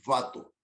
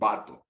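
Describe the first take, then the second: First: It begins with a buzzing lip-and-teeth V sound. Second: It begins with a both-lips B sound. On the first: The speaker calls it wrong. "No decimos vato" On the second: The speaker calls it right. "decimos vato, con B de burro"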